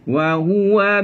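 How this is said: The first syllable is soft and light. The speaker calls it right. "lembutkan wa"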